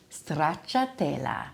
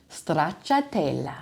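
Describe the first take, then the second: First: The R is rolled with a trill. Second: The R is rolled with a trill.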